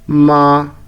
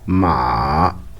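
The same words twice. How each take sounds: First: The pitch stays high and level. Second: The pitch dips low, then rises again. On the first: "une voix stable comme un chant monotone" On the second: "une descente suivie d'une remontée"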